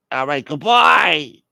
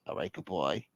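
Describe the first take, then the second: First: Loud, drawn-out, higher farewell; hammed-up huffy sign-off; offended goodbye. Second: Low, very soft sign-off; hushed, acted phone goodbye; subdued goodbye. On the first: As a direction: stretch it into a wounded send-off. Caller's second offended goodbye. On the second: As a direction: mumble a sulky farewell. Caller's first subdued goodbye.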